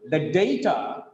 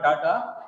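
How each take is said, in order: First: "data" as DAY-tuh; correct pronunciation. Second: "data" as DAH-tah; wrong pronunciation. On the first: Teacher correcting student's reading, DAY-tuh for "data". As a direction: say DAY in the first syllable of "data". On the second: Teacher showing the student's mistake, DAH-tah for "data". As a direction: open AH in the first syllable of "data". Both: Shown as a demonstration. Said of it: "not data".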